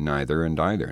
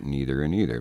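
First: The words are said in the British-style way. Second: The words are said in the American-style way. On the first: This is the form learned growing up. "I came from rather Anglophile parents, and I grew up saying" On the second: This is the form not used growing up.

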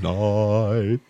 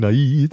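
First: The word is pronounced in an affected, mannered way. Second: The word is pronounced in a plain, everyday way. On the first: The speaker calls it wrong. "I can't stand those singers that sing like this" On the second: The speaker calls it right. "I won't say night"

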